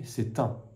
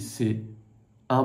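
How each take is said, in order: First: The t of c'est links into un. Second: The t of c'est is silent before un. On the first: "je vais faire la liaison entre le T de c'est et la voyelle" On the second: "je n'ai pas dit c'est un problème"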